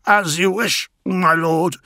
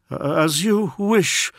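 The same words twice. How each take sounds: First: Raised, eager servant's voice; courtier voice. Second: High, slow, solemn assent; bow to his lord's will; devoted courtier. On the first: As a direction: speak up as a devoted courtier. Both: Acted.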